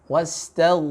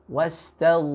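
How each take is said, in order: No difference in how they are said.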